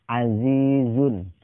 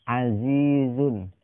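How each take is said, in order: The two takes are said the same way.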